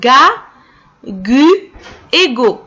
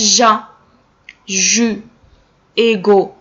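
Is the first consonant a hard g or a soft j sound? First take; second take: hard; soft. First: Each syllable starts with a hard g sound. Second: Each syllable starts with a soft j sound. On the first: The speaker calls it right. "نقراوها غا غو" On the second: The speaker calls it wrong. "non c'est faux"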